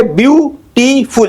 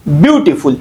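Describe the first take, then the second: First: beautiful slowly in three beats, BYU, TEE, FUL; split into syllables. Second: Said in the usual way. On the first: Shown as a demonstration. Teacher breaking down the word for students, slowly split up. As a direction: separate and stretch each syllable of beautiful. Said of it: "इसमें तीन है". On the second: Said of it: "पहले वाले को stress किया गया".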